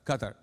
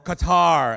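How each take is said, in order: First: The name is said with Arabic pronunciation. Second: The name is said with American pronunciation.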